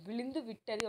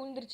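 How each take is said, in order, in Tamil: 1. இது எழுத்து வழக்கில், முழுமையான வடிவில் சொல்லப்படுகிறது. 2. இது பேச்சு வழக்கில், சுருக்கமான வடிவில் சொல்லப்படுகிறது. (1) "எழுத்து வழக்கில்" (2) "பேச்சு வழக்கில்"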